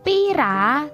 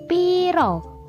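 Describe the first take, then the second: First: The final vowel is pronounced as a. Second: The final vowel is pronounced as o.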